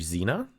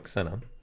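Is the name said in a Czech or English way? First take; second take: English; Czech. First: The name is said the way English might say it. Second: The name starts with an X sound, Czech style. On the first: "How is actually Xena pronounced in English?" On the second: "with us for Czech, it's X, so"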